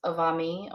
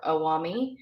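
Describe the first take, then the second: First: Avami with a v sound; dialect pronunciation. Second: Awami with a w sound; dialect pronunciation. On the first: Teacher showing the vocative, avami with a v. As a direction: say avami with v, not w. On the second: Teacher showing a dialect vocative, awami with a w. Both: Shown as a demonstration. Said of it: "depending on your dialect".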